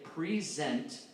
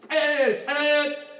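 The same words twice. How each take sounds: First: The word is spoken plainly in conversational tone. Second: The word is barked out as a loud command. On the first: The speaker calls it wrong. "it doesn't sound like that" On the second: The speaker calls it right. "It sounds like this"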